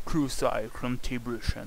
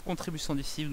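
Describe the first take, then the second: First: Slow, in a jokey English accent. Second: Said in the usual way. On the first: Shown as a demonstration. Gamer jokes to viewers in a mock English accent. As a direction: say it like an Englishman would, slowly. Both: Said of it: "moi et mon accent anglais".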